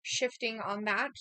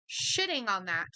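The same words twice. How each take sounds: First: "shifting" read slowly with a questioning rise; "shifting on that" said slowly, rising at the end; misread word. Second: "Shitting" stressed, falling, as the correction; "Shitting on that" said firmly with a falling tune; corrected word. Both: Shown as a demonstration.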